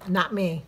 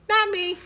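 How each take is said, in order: First: Said in the usual way. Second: Higher, louder teasing denial; sing-song it like a tease; playful insistence. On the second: Real, not acted.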